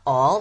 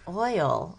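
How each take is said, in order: First: The vowel sounds like the word all. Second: The vowel is an oy sound, as in oil. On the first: The speaker calls it wrong. "it's not all" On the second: The speaker calls it right. "it's oil"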